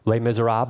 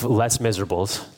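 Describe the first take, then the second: First: Naming the musical to the congregation, Les Miserables said French-style, "lay miz-er-AHB"; French pronunciation. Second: Les Miserables read as English, "less MIZ-er-uh-bulls"; anglicized pronunciation. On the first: Real, not acted. Preacher names the film, Les Miserables in French pronunciation. Title said French, then anglicized. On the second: Shown as a demonstration. Preacher jokes with congregation, Les Miserables in literal English pronunciation. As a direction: say Les Miserables with every s sounded, English-style.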